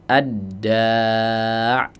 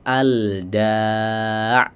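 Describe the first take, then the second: First: The L merges into a doubled d sound. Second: The L sound is clearly pronounced. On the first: The speaker calls it right. "lafadz ad-da'" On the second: The speaker calls it wrong. "tidak dibaca"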